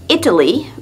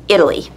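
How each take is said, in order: First: The middle consonant is a crisp T sound. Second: The middle consonant is a soft D-like flap. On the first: The speaker calls it wrong. "So we don't say Italy" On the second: The speaker calls it right. "but Italy"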